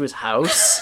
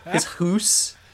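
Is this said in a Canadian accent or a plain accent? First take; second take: plain; Canadian. First: The vowel in house is said plainly. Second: The vowel in house sounds like hoose.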